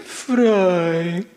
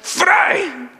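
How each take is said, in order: First: It is said in a sad tone. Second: It is said in an angry tone.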